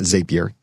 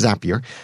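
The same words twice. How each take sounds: First: The first syllable does not sound like 'zap'. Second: The first syllable sounds like 'zap'. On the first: The speaker calls it wrong. "so it's not Zapier" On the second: The speaker calls it right. "it is pronounced that way because you make zaps with Zapier"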